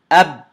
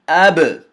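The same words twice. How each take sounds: First: The final b closes and the sound stops abruptly. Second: The final b releases with a slight echoing bounce. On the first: The speaker calls it wrong. "Now I'm going to say it incorrectly" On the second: The speaker calls it right. "That's correct"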